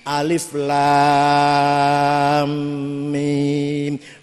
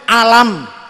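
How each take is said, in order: First: It is read as three separate letter names. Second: It is read as the single word alam. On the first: The speaker calls it right. "Tapi sing iki alif lam mim mad lazim kilmi musaqqal" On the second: The speaker calls it wrong. "kula dhewe macane alam"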